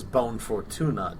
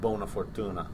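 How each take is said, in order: First: The first word ends without a final vowel. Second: The first word ends with a final vowel. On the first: The speaker calls it wrong. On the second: The speaker calls it right.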